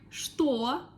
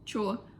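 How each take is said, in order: First: The word is pronounced like 'shto'. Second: The word is pronounced like 'cho'. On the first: "the word что" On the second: "we pronounce sometimes like чё"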